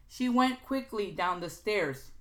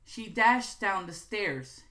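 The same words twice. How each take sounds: First: "She went quickly down the stairs" read slowly, "went" stressed; slow example read. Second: "dashed" stressed, slow and louder; slow emphatic read. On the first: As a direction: spell out the weak version deliberately. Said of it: "Look also for weak verb". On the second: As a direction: hit "dashed" as the strong verb. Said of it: "can become". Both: Shown as a demonstration.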